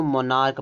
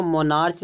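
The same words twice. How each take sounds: First: मोनार्क ending in a hard "k". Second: मोनार्च ending in a "ch" sound; CH as "cha". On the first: Teacher giving students the correct reading, मोनार्क ending in "k". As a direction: say मोनार्क as "monark". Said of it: "का का sound निकल रहा है". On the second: Teacher showing the misreading, मोनार्च ending in "ch". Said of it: "मोनार्च नहीं पढ़ेंगे". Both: Shown as a demonstration.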